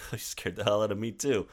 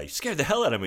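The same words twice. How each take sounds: First: Softer, casual imitation of him; mock-casual reply, played down; playing it off. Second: Higher-pitched imitation of her; imitating her, pitched up; woman's startled retort. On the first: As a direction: toss it back offhandedly. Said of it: "the way that he kinda plays it off". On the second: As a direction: quote her complaint in a raised voice. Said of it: "she's like".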